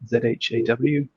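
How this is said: The letters are named the English way. This is how it would be said outside Switzerland.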